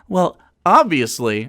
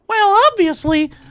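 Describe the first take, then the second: First: It is said in a natural speaking voice. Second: It is said in a squeaky cartoon voice. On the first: "I'm just going to say my own voice" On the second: "I don't know why I'm doing Mickey Mouse voice again"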